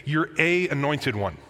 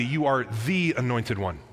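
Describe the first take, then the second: First: Said in the usual way. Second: "the" said with weight, emphatic declaration; emphatic stress on THE. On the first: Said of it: "Peter doesn't just say". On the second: Shown as a demonstration. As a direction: lean on "the" so it means the only one. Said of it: "He says emphatically".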